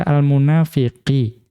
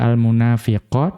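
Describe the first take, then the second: First: The word ends with an 'i' vowel. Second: The word ends with an 'a' vowel. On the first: The word follows the surface form of the preceding word. "Atau bisa juga dibaca al-munafiqi" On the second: The word follows the original object position. "bisa dibaca al-munafiqo dengan cara membaca yang pertama"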